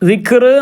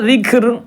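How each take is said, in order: First: The final r is pronounced heavy and thick. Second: The final r is pronounced light and thin. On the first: The speaker calls it wrong. "ദിക്ർ എന്നല്ല" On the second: The speaker calls it right. "അപ്പോൾ അത് തർക്കീക്ക് ചെയ്യണം"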